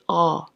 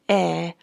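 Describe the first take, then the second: First: The vowel is made with the mouth too open. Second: The vowel is made with lips spread sideways. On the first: "don't open it too much" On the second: "do not open your mouth sideways. Don't say eh"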